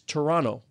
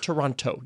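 First: The second t sound is dropped entirely. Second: The second t sound is clearly pronounced. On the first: The speaker is from the city. The speaker calls it right. "It's Toronto, like two N's. You don't put the second T" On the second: The speaker is not from the city. The speaker calls it wrong. "it's not Toronto. You don't say the second T"

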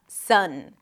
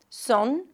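First: The vowel is open and unrounded, as in cup. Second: The vowel is rounded, close to oh. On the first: The speaker calls it right. "keep the tongue kind of flat, slightly high, and that your lips are relaxed" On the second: The speaker calls it wrong. "Some people might pronounce it more like oh"

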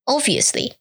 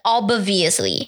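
First: The B sound is dropped. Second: The B sound is clearly pronounced. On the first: The speaker calls it right. "don't pronounce the B sound" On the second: The speaker calls it wrong. "但是我讲的是 obviously"

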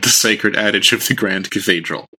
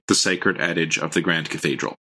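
First: It is read in a put-on messenger voice. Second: It is read in a plain, normal voice.

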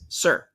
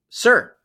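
First: It is said softly. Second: It is said loudly.

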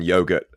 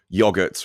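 First: The word is said with a non-British pronunciation. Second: The word is said with a British pronunciation. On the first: This is how speakers elsewhere say it. "rather than yogurt" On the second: This is how British speakers say it. "Yogurt is in British English, we call it yogurt"

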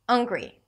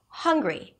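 First: The opening H is reduced, almost missing. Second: The opening H is clearly breathed out. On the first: The speaker calls it wrong. "If I reduce the H in the word hungry, it's going to sound like this" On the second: The speaker calls it right. "just release air before the word hungry"

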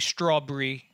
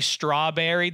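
First: The word is said in a fantasy-drama character accent. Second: The word is said in a plain everyday accent. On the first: This is how the characters say it. The speaker calls it right. "They say strawberry" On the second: This is not how the characters say it. The speaker calls it wrong. "they don't say strawberry"

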